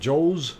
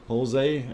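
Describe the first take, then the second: First: The name is said as 'Joe's'. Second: The name is said as 'Jose'. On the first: The speaker calls it wrong. "not Joe's" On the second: The speaker calls it right. "I hope I did say it right as Jose"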